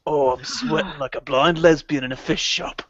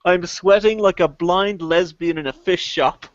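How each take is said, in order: First: Ray Winston impression. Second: Ray Winston quote. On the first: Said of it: "in Ray Winston's amazing fucking". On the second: Retold or imitated. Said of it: "Ray Winston best of".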